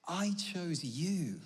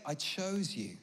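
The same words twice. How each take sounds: First: "I chose you" drawn out very slowly; emphatic repetition. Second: Said in the usual way. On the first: Retold or imitated. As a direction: stretch each word of "I chose you" for weight. Quote repeated slowly for emphasis.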